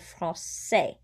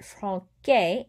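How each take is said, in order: First: The middle consonant is a soft S sound. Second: The middle consonant is a hard K sound. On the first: The speaker calls it right. "makes the C into a soft S sound" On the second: The speaker calls it wrong. "If I did not have that little squiggly thing"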